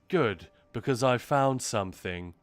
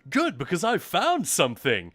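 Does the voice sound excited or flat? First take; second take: flat; excited. First: It is said flatly, with little energy. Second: It is said with lively, excited energy. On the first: This is how the recording actually sounds. "but what you'll actually hear is" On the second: This is how the speaker believes they sound. "what you'll think you're saying is"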